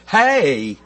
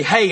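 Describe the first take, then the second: First: "hey" drawn out into two syllables, North Carolina style. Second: Said in the usual way. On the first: Shown as a demonstration. Preacher jokes about home speech, North Carolina drawn-out "hey". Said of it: "two syllables". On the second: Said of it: "pronounce everything with two syllables".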